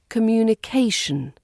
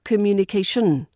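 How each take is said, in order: First: The ending of the word sounds weak. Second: The ending of the word sounds strong. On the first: The speaker calls it right. "The ending is weak and a bit boring, as it should be" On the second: The speaker calls it wrong. "not communication"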